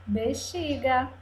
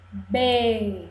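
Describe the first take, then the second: First: Said in the usual way. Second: BE... XI... GA, each held apart; syllable by syllable. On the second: Shown as a demonstration. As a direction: break "bexiga" into three separate syllables. ("bexiga" silabada, com pausas: be... xi... ga) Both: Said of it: "cortada em pedacinhos".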